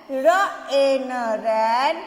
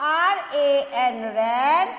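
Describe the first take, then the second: First: "र ए एन" as single phonic sounds, slowly, then "ran" blended. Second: "आर ए एन" named letter by letter, then "ran" blended; spelling with letter names. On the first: Teacher sounding out "र ए एन" phonically for kids, then "ran". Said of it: "अब इसको फिर से pronounce करते हैं". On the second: Teacher spelling "आर ए एन" by letter names for kids, then "ran". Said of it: "ए एन को कैसे बोलेंगे?". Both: Shown as a demonstration.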